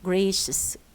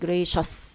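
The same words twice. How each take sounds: First: The final syllable has a weak schwa vowel. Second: The final syllable has a full vowel. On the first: The speaker calls it right. "No, gracious" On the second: The speaker calls it wrong. "Don't say gracious"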